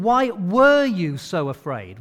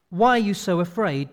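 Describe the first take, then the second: First: Slow, loud "were" as the key word; stress on were. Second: Said in the usual way. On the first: Acted. Jesus asking the disciples, stress on "were". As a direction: lean hard on "were" in "Why were you so afraid". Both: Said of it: "he's not saying".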